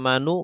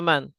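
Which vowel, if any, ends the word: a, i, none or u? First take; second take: u; none. First: The word ends in a u vowel. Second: The word ends in n with no vowel. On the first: The speaker calls it wrong. "tidak manu" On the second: The speaker calls it right. "selalu dibaca man"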